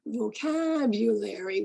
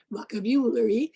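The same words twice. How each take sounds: First: Vocabulary with the second syllable stretched out; stress on second syllable. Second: Vocabulary with the stress misplaced off its second syllable; mispronounced stress. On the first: Shown as a demonstration. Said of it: "teach your students two in four". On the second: Retold or imitated. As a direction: imitate a student putting wrong-syllable stress on vocabulary. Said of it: "the student mispronounces vocabulary".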